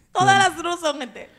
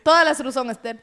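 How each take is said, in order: First: Repeats it higher, laughing; laughing, repeated louder. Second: Said in the usual way. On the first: Real, not acted. Repeating the joke to friends while laughing.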